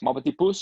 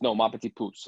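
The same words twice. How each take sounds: First: Pouce asked back with a rise on pouce; a confused American try at "Mon petit pouce?"; mispronounced French. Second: "mon petit pouce" said back firmly with a fall, a lightly voiced Belgian girl; correcting French. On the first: Retold or imitated. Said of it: "And we're like". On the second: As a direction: set the American straight on "mon petit pouce". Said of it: "She goes".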